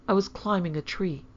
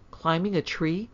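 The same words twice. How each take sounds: First: A small, grudging confession; reluctant admission. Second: Shocked echo, rising at the end; incredulous question. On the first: Daughter admitting it to mother, reluctant. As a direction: own up with mild reluctance. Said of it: "answered Hyacinth reluctantly". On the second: Mother echoing daughter's confession, incredulous. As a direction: repeat it in disbelief. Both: A narrator's reading.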